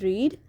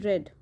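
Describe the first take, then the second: First: The vowel is long, like in 'reed'. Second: The vowel is short, like in 'red'. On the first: The verb is in the present tense. "In the first sentence, it is read" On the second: The verb is in the simple past tense. "in simple past, it will be pronounced as read"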